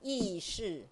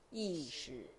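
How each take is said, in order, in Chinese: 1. 这是按台湾国语的方式说的。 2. 这是按大陆普通话的方式说的。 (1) "台湾人讲意识" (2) "中国人讲意识"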